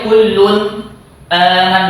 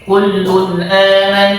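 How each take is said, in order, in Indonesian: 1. Ada henti di antara kedua kata itu. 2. Kedua kata itu menyambung tanpa jeda. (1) "gak boleh berhenti sini" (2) "jelas berkelanjutan"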